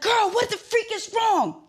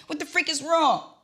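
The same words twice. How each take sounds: First: Much higher, loud, slow freaked-out demand; retold panicked demand at a silent friend; frantic demand. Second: High, loud, mock panicked demand; imitating her own panic; frantic demand. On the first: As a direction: stretch it out in high panic. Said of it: "I'm like". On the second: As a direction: repeat it, still pitched high. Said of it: "I didn't say freak".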